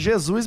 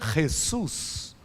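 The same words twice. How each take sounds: First: The name is said with a Portuguese pronunciation. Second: The name is said with a Spanish pronunciation. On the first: This is how Brazilians usually say it. "nós somos brasileiros e nós fala Jesus mesmo" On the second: This is how the man's own language says it. "que é espanhol, e na verdade a pronúncia do nome dele seria Jesus"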